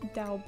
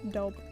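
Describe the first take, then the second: First: The word is said like 'daub'. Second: The word is said like 'dob'. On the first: The speaker calls it wrong. "That sounds much better than Daub" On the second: The speaker calls it right. "I prefer it being pronounced like Dob, that's cuter"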